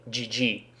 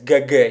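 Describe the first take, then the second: First: "G G" as soft "jee jee"; English letter names. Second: "G G" as hard "geh geh"; Russian letter names. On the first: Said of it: "use the English variant". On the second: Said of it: "because nobody says". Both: Shown as a demonstration.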